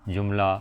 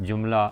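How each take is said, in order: No difference in how they are said.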